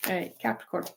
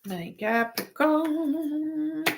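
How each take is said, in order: First: Said in the usual way. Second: Higher, very slow and stretched; drawn-out sing-song. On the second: Pretend. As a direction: sing the sign name out slowly. Repeats the sign, second time drawn out.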